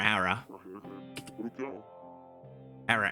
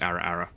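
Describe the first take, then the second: First: It is said with an Australian accent. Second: It is said in his own plain voice.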